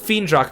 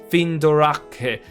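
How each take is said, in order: First: The name has an English-style pronunciation. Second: The name has a Japanese-style pronunciation. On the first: "I think Fiendrak makes sense" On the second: "they're putting a Japanese pronunciation on it"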